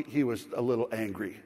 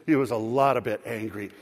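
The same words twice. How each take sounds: First: Low, dry understatement; understated. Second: Low, with weight on LOT; emphatic correction. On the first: Storyteller downplays the other driver's anger, understated. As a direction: play it down, lower. Understatement, then corrected upward. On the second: Storyteller corrects his understatement, stressing "lot". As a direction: lean hard on "lot". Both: Acted.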